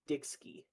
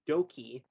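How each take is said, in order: First: It is said with a k-s sound, like Dixky. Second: It is said with no k-s sound, like Doki. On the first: This is how other people usually read the username. The speaker calls it wrong. "it's usually like Dixky" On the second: This is the intended reading of the username. The speaker calls it right. "It was meant to be said as Doki"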